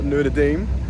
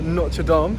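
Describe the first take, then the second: First: It is pronounced in the American way. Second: It is pronounced in a non-American way. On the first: The speaker calls it wrong. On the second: The speaker calls it right.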